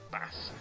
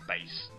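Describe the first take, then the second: First: The word rhymes with 'mass'. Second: The word rhymes with 'face'. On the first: It names a kind of fish. The speaker calls it wrong. "not bass ... he's not a fish" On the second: It names the low musical part, as in bass and treble. The speaker calls it right. "it's bass"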